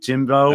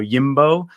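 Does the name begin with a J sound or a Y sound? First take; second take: J sound; Y sound. First: The name begins with a J sound. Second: The name begins with a Y sound. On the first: "James becomes Jimbo" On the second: "jokingly pronounced the J like a y"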